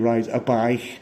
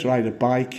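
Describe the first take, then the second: First: It is said in a Liverpool accent. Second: It is said in a standard English accent. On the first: The speaker calls it right. "you ride a bike" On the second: The speaker calls it wrong. "you don't ride a bike"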